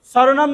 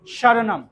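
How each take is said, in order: First: স্বরনাম said "soronom", with a plain s; wrong dental s. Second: স্বরনাম said "shoronom", with sh; palatal sh. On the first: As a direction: hit a hissed s at the start of স্বরনাম. (স্বরনাম-এর শুরুতে দন্ত্য স, ভুল উচ্চারণ) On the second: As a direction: start স্বরনাম with tongue near the palate. (স্বরনাম-এর শুরুতে তালব্য শ) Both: Shown as a demonstration. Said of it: "স্বরনাম নয় কিন্তু".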